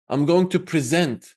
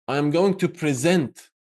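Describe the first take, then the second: Both takes have the same delivery.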